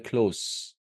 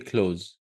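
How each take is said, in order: First: The word ends with an s sound. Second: The word ends with a z sound. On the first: It is the adjective meaning near or intimate. The speaker calls it right. "The s th sound, not the z sound" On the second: It is the verb meaning to shut. The speaker calls it wrong. "you don't say close"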